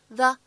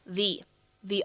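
First: The word is said as a weak 'thuh'. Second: The word is said as a full 'thee'. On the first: The speaker calls it wrong. "此时我们不能读成the" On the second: The speaker calls it right. "而应该读成相对应的重读形式the honor"

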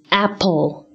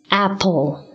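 No difference in how they are said.

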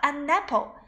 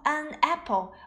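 First: The n of an runs into apple. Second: The two words are said separately, not linked. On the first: "而是读成了an apple。没错，这里就是一个英语里面的连读现象" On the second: "何老师没有读到an apple"

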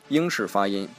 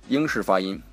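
No difference in how they are said.

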